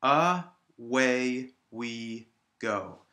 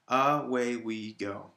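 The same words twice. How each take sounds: First: Very slow "Away we go", a gap after each syllable; separated syllables. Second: Slow "Away we go" in four even beats; separated syllables. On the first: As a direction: break "Away we go" into A, WAY, WE, GO. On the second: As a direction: count out "Away we go" syllable by syllable, slightly joined. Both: Shown as a demonstration. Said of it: "separate all of the syllables".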